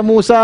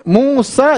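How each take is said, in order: First: "Musa" with a doubled, drawn final a; wrong a ending. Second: "Musa" ending on a simple short a; high "Musa", nothing added after the a; correct short ending. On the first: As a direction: add an extra a to the end of "Musa". ("Musa" dengan a tambahan di akhir) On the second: ("Musa" dengan a pendek di akhir) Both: Shown as a demonstration. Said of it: "jangan dibaca Musa".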